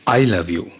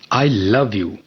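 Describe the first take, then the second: First: The stress is on the word I. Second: The stress is on the word love. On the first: Whether the other person loves back does not matter. "अगर मैं आई पर emphasise करता हूँ" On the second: The feeling is love, not hate. "I don't hate you"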